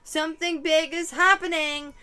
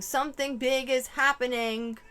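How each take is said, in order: First: Louder, higher yelled repeat; imitated yell. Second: A mild mock yell. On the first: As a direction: yell it the second time for real. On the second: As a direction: imitate someone calling out, half-hearted. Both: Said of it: "someone yelling".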